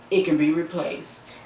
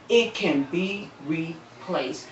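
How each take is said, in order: First: Said in the usual way. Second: "It can be replaced" drawn out slowly and softer; slow, soft emphasis. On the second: Real, not acted. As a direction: let "It can be replaced" sink in, slow and quiet. Repeats the line for emphasis.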